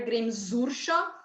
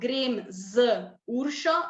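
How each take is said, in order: First: The words run together without any pause. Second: Each word is separated by a short pause. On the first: "we like uh, link it all together" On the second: "we don't have the tendency to make a stop"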